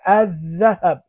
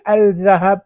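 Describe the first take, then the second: First: "الذهب" as adh-dhahab, no L, doubled dh; correct silent lam. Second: "الذهب" as al-dhahab, with a clear L; wrongly sounded lam. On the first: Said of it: "لا، نقول الذهب". ("الذهب" بذال مشددة دون لام) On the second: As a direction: sound the L in "الذهب" before a single dh. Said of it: "ما نقول الذهب". ("الذهب" بنطق اللام خطأً: أَلْ ذهب) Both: Shown as a demonstration.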